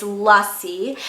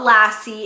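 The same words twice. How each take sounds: First: Lussie said slowly as "LUSS-ee"; correct Lussie pronunciation. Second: Lassie said "LASS-ee", like the dog's name; flat "a" as in "lass" in Lassie; mispronounced Lassie. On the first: Host teaching viewers the shade name, Lussie as a slow "LUSS-ee". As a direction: say Lussie with an "uh" in the first syllable. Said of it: "it's Lussie". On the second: Host correcting viewers on the shade name, Lassie as "LASS-ee". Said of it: "it's not Lassie". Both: Shown as a demonstration.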